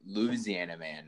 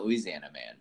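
First: Slow "Louisiana man", opening on LOOZ; shortened, drawn-out Louisiana. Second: "Louisiana man" with loo-EE at the start; full pronunciation of Louisiana. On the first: Retold or imitated. Host quoting a fiddle song to guests, slow shortened Louisiana. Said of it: "Then they say Louisiana man". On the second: Shown as a demonstration. Host showing guests what is not sung, full Louisiana. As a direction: sound every syllable in "Louisiana man". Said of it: "not Louisiana man".

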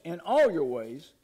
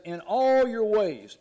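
First: "all" stretched slowly, then easing down; slow, deliberate weight on "all", without shouting; measured stress on ALL. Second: "all" drawn out loud and high; stress on ALL. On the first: Preacher repeats verse six to congregation, slowly stressing "all". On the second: Preacher quotes verse six to congregation, leaning hard on "all". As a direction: slowly stretch and punch the word "all". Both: Real, not acted.

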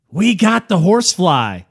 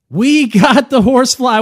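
First: Said in the usual way. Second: Higher, louder, hammed-up repeat; louder mock announcement. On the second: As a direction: punch it up the second time.

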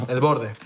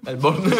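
First: Said in the usual way. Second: "borde" said as "borne"; mock mispronunciation. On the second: Co-host echoes the slip about the crust, playfully mispronounced. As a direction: garble the end of "borde" into an N sound.

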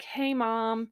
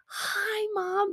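First: Understated hello, only slightly raised; casual greeting. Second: High, squealed mock greeting; excited greeting. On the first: Retold or imitated. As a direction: imitate an offhand greeting. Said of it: "very casual". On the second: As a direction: imitate a thrilled daughter at the door, very high. Imagined usual excited door greeting.

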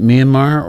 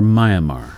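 First: "Myanmar" said MEE-uh-mar; first syllable as "mee". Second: "Myanmar" said MY-uh-mar; first syllable as "my". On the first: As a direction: say "Myanmar" opening with a "mee" sound. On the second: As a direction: say "Myanmar" opening like the word "my". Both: Shown as a demonstration. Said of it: "is it Myanmar or Myanmar".

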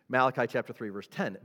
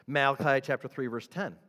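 The two takes are said the same way.

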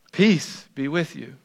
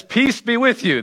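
First: Quiet, gentle peace be with you; soft calm greeting. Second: A raised, ringing peace be with you; higher greeting. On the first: Jesus calms his frightened disciples, softly. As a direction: settle the room with it softly. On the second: Jesus greets his frightened disciples, higher. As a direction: lift the greeting up high. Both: Retold or imitated. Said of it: "And Jesus says".

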